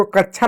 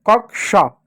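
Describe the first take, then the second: First: कक्षा misread as "kachchha"; कक्षा with chchh replacing k-sh; mistaken chh reading. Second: कक्षा as "kak-sha"; कक्षा with a clear k before sh; k-sh reading. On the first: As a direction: blur कक्षा into a chh sound. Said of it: "इसको कक्षा नहीं पढ़ते". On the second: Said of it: "श हो जाता है". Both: Shown as a demonstration.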